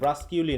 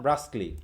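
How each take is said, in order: First: It is said with an extra 'kyoo' syllable. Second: It is said without the extra 'kyoo' syllable. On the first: The speaker calls it wrong. "ব্রাস্কিউলি না" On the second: The speaker calls it right.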